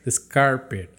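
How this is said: It is said in a Chicago accent.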